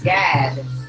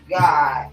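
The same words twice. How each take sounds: First: The vowel sounds like the a in gad. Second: The vowel sounds like the o in god. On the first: This is the older, original pronunciation. "they were pronouncing it uh God, like G A D" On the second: This is the later English pronunciation. "they turn it into the G O D"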